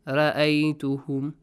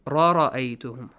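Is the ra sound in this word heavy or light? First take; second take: light; heavy. First: The ra sound is pronounced lightly. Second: The ra sound is pronounced heavily. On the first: The speaker calls it wrong. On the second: The speaker calls it right.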